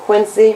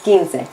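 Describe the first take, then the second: First: The word ends in an 'ee' sound. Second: The word ends in an 'eh' sound. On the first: The speaker calls it wrong. "Please don't pronounce this word Quincy" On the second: The speaker calls it right. "So this is quince"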